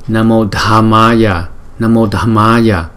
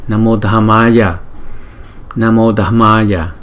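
No difference in how they are said.

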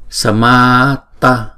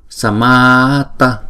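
No difference in how they are said.

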